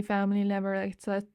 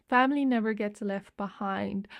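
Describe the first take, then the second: First: Rushed, garbled and cut off mid-word; tripping over words. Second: Said in the usual way. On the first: Real, not acted. Reader quoting a film line too fast, stumbling. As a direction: rush it until the words can't catch up. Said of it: "I was speaking too fast". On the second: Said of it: "for my words to catch up".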